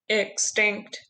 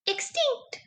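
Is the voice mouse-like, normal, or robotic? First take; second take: robotic; mouse-like. First: It is said in a flat, mechanical voice. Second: It is said in a tiny, squeaky voice. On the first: "Can you say it in a robot voice?" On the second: "Can you say it in a mouse voice?"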